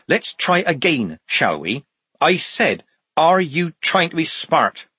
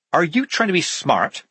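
First: High, slow, deliberate repeat; stern demand. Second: High-pitched, challenging question; demanding. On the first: Sergeant Polly repeating her challenge to the guard, slow and demanding. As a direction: spell the challenge out slowly, pitched up. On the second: Polly confronting the puzzled guard inches from his face, demanding. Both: A narrator's reading. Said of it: "she demanded".

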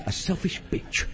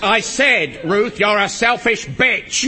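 First: Softer, slow, discreet repeat; hushed insult. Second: Loud, slow, emphatic accusation; angry insult. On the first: Shushed husband repeating the insult to his wife, hushed. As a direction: keep the insult down for the room. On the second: Husband insulting his wife on the phone, angry. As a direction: spell it out loudly down the phone. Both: Acted.

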